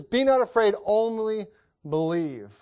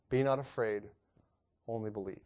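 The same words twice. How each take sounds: First: Be not afraid, said out strong and high; a preacher voicing Jesus boldly; louder comforting command. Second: Be not afraid, read low and hushed; a preacher reading scripture quietly; soft comforting read. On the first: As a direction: call out the comfort, ringing. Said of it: "he says". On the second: Acted. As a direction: lay the words down gently, fading. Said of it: "he saith unto the ruler".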